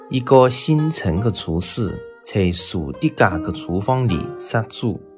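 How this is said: Key consonants sound like z, c, s. This is the newer way of speaking the dialect. "用新派南昌话则读"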